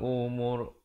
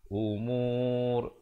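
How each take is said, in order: First: The vowel before the final r is short. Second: The vowel before the final r is held long. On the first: The speaker calls it wrong. "Jangan pula kita berhenti dengan turja'ul umur. Itu tak betul" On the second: The speaker calls it right. "Sekurang-kurangnya umur barulah diwakafkan"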